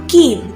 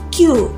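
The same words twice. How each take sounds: First: The letter is named the Indonesian way. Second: The letter is named the English way. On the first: The speaker calls it right. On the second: The speaker calls it wrong.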